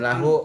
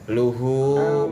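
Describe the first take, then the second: First: The first vowel is an a sound. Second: The first vowel is an u sound. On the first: The speaker calls it wrong. "bukan lahu" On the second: The speaker calls it right. "luhu bukan lahu"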